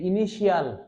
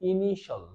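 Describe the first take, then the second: First: The ending is said with an extra 'ee' sound. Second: The ending is said as a short 'shal'. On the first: The speaker calls it wrong. "আমরা বলি যে ইনিশিয়াল ... উচ্চারণ করতে পারবো না" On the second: The speaker calls it right. "আমরা উচ্চারণ করবো ইনিশাল"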